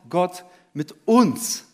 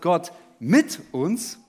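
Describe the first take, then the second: First: The stress is on the word uns. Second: The stress is on the word mit. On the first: The focus is on whom God is with. "bei jedem Punkt liegt die Betonung auf einem anderen Wort" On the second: The focus is on God being with us. "bei jedem Punkt liegt die Betonung auf einem anderen Wort"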